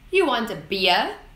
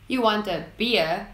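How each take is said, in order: First: The voice rises at the end. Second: The voice falls at the end. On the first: "is a question in the upwards tone" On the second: "that sounds a bit odd"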